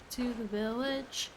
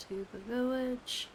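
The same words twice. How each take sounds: The two takes are said the same way.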